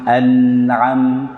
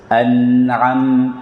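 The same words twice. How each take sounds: The two takes are said the same way.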